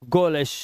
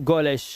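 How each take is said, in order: The two takes are said the same way.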